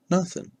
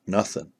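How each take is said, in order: First: Nothing, said much higher and softer; nothing jumps up high. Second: Said in the usual way. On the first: Acted. Telling viewers how empty the mountain was, nothing pitched high and soft. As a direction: lift the second nothing up high in disbelief. Stressing isolation, repeated word.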